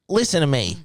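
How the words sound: It is said at a very high pitch.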